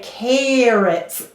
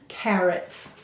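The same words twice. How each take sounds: First: The first vowel is drawn out long. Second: The first vowel is kept short. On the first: "in Minnesota, we like to make sounds long. So I say carrots" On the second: "it's clearly a short vowel"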